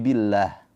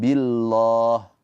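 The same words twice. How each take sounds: First: The l is thin with a light a vowel. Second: The l is thick with a heavy vowel. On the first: The speaker calls it right. "tapi billah. Pakai a" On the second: The speaker calls it wrong.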